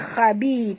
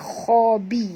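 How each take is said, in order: First: The kh sound is light and thin. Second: The kh sound is heavy and thick. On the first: The speaker calls it wrong. "jangan baca khabi" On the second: The speaker calls it right. "kha tebal"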